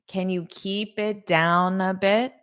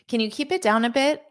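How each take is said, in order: First: The sentence is said at a slow pace. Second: The sentence is said at a fast pace.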